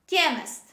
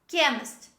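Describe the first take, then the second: The two takes are said the same way.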